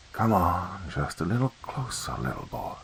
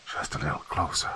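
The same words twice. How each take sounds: First: Soft whispered hiss, fading away; choked snake voice. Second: Whispered, much softer hissing lure; choked snake voice. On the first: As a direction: lure the boy closer like a choking snake. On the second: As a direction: coax like a strangled snake from the dark. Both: Acted. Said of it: "sounded like a snake that was being choked".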